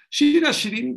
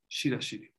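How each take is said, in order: First: Shira Shirim dicho más alto y agudo, con subida al final; título proclamado. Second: Said in the usual way. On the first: Shown as a demonstration. Repite el título con énfasis. (proclamando Shira Shirim en alto)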